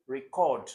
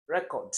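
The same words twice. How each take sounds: First: Record stressed on the second syllable, re-CORD. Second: Record stressed on the first syllable, REC-ord. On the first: Teacher contrasting the verb with the noun, record stressed on CORD. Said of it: "Remember that there is also record". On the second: Teacher showing students the noun, record stressed on REC. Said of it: "Where is the stress on record?". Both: Shown as a demonstration.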